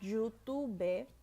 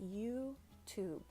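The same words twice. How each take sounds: First: An extra vowel sound is heard after the final consonant. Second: The word ends cleanly on the final consonant. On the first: The speaker calls it wrong. "So it's not YouTube" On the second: The speaker calls it right. "the E at the end of words in English ... is typically silent"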